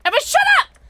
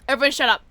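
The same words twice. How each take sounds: First: High, loud "Everyone shut up!"; high loud yelled "shut up"; shouting. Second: Said in the usual way. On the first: Real, not acted. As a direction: yell it over the noise.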